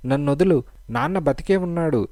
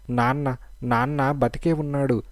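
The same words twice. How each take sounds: First: Raised and higher, crying out; a louder cry to make them believe; half-shouted and pitched up. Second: A mild cry that something is true. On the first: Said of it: "మరింత బిగ్గరగా అరిచింది". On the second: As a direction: call out the news, only a little raised. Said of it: "అని పద్మ అరిచింది". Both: A narrator's reading.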